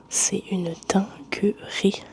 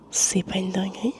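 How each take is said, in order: First: "C'est une dinguerie" whispered slowly, word by word; emphatic whispered answer. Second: "C'est pas une dinguerie" whispered with a rise at the end; whispered question. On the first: Answering own question about the view, "dinguerie" slow and whispered. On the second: Asking viewers about the view, "dinguerie" rising in a whisper. Rhetorical question before its answer. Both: Real, not acted.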